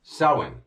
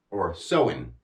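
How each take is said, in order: First: Samhain said as sow-en, slow and clear; Samhain pronounced sow-en, stress on first syllable; dictionary pronunciation. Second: Samhain repeated as sow-en, lower and falling; Samhain said sow-en again, dropping low; dictionary pronunciation. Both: Shown as a demonstration. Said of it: "it's pronounced like this".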